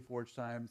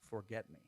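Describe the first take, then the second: First: It is read as the words forge time. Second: It is read as the words forget me. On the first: "a lot of people say Forge Time" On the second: "it is actually Forget Me"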